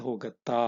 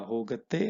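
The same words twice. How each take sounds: First: ಹೋಗತ್ತಾ ending in a long open aa, the question form; ಹೋಗತ್ತಾ with the final aa stretched, asking. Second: ಹೋಗತ್ತೆ ending in a clear short e, said as a plain statement; ಹೋಗತ್ತೆ with the final e sound, telling not asking. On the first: Teacher showing students the question form, ಹೋಗತ್ತಾ ending in aa. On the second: Teacher contrasting the statement form for students, ಹೋಗತ್ತೆ ending in e. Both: Shown as a demonstration. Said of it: "If you want to ask it like a question".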